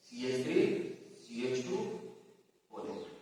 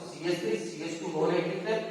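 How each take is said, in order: First: Low, soft, piece by piece with pauses; hushed, lower voice, trailing softer; writing aloud. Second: Said in the usual way. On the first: Real, not acted. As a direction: murmur the formula as you write it. Writing the same formula on board.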